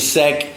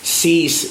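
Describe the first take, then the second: First: The name is said like 'sec'. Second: The name is said like 'cease'. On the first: "Stop saying sec" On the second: "Stop saying"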